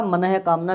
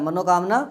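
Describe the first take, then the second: First: मनः कामना as ma-nah-e kaamna; sounded visarga. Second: मनोकामना with "no" in the middle; wrong o form. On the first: Teacher giving the right form, मनः कामना with sounded h. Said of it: "बिल्कुल सही होता है". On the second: Teacher showing the rejected form, मनोकामना with o. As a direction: say मनोकामना as ma-no-kaam-naa. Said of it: "सही नहीं होता". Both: Shown as a demonstration.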